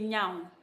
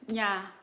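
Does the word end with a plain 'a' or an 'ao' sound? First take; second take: ao; plain a. First: The word ends with an 'ao' glide. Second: The word ends on a plain 'a' vowel. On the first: This is how Wala speakers say it. "Some the Wala people say nyao" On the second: This is how the speaker's own dialect says it. "we will say nya"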